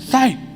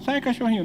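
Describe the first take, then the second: First: It is said harshly and forcefully. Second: It is said softly and gently.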